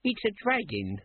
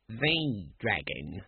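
First: Put-on high-pitched young guard; young guard's high voice; younger guard. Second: "The" drawn out slowly as thee; low, slow stress on "The"; correcting. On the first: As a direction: pitch it well up, as the junior guard. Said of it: "said the younger of the guards". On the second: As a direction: correct him with a long, stressed "The". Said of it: "corrected his superior". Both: A narrator's reading.

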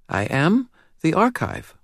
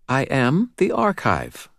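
First: Put-on high, serious child's voice with a faint British lilt; serious little girl, faint British accent. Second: Put-on high child's voice, slow and sure; steady, assured child. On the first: Narrator voicing the girl to Dresden, serious and high. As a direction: speak like a grave little girl. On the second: Girl calmly insisting to Dresden, slow and assured. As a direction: say it calm and certain, slowly. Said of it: "her voice steady and assured". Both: A narrator's reading.

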